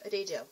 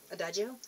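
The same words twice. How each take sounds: First: Adagio said as uh-DAY-zho, English style; first try at the name. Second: Adagio said as uh-DAH-jo, Italian style, with a questioning rise; second guess at the name. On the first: Vlogger guessing a tea brand's name, uh-DAY-zho. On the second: Vlogger trying a second way to say the brand, questioning. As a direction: test Adagio as uh-DAH-jo, unsure. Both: Shown as a demonstration. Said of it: "I don't know how to pronounce it".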